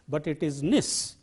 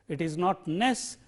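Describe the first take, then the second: First: The ending has a short 'i' vowel. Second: The ending has an open 'e' vowel. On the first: The speaker calls it right. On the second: The speaker calls it wrong.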